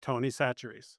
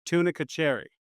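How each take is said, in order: First: "Tony Chachere's" said as Tony SATCH-er-eez; "Chachere's" starting with an S sound, quietly; correct local name. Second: "tunica cherry" read as plain English words; botched Tony Chachere's as "tunica cherry"; mispronounced name. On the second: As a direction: say "tunica cherry" like tuna-kuh cherry. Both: Retold or imitated. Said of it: "That's how badly they mispronounced it".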